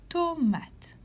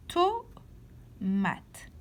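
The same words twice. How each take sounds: First: Said in the usual way. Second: "Tomate" pulled apart with a long pause after the first syllable. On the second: Shown as a demonstration. Teacher helping pupils find a sound, "Tomate" syllable by syllable. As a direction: split "Tomate" into two separate beats. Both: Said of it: "Colorie la case où tu entends to".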